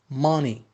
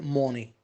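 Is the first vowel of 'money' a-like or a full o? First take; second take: a-like; full o. First: The first vowel sounds between o and a. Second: The first vowel sounds like a full o. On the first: The speaker calls it right. "Ma. Between O and A" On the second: The speaker calls it wrong. "Don't say money"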